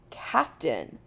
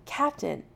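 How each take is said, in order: First: Low, firm insistence. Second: Said in the usual way. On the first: A narrator's reading. McCoy insisting on rank to Jim, firmly. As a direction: hold your ground on the title. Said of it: "McCoy says firmly".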